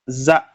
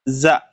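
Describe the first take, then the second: The two takes are said the same way.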